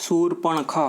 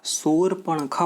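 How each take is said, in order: No difference in how they are said.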